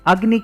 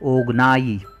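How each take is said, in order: First: The word starts with an 'a' sound. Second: The word starts with an 'o' sound. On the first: "अग्नि के स्थान पर" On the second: "शब्द के उच्चारण में परिवर्तन कर दिया जाता है"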